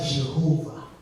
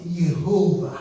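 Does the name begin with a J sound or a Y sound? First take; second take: J sound; Y sound. First: The name begins with a J sound. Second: The name begins with a Y sound. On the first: The speaker calls it wrong. "Il n'y a pas Jéhovah" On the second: The speaker calls it right. "C'est Yehovah"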